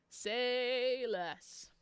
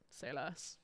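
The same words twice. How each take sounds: First: A lingering, stretched-out "Say less"; drawn-out emphasis. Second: Said in the usual way. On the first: Real, not acted. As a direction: SAY stretched long, higher than usual. Same words repeated drawn out.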